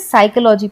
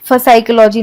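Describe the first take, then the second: First: The word begins with an s sound. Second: The word begins with an f sound. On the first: The speaker calls it right. "हम इसे साइकोलॉजी पढ़ते हैं" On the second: The speaker calls it wrong. "इसे हम पसाइकोलॉजी या फसाइकोलॉजी नहीं पढ़ेंगे"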